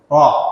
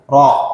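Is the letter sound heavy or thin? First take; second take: heavy; heavy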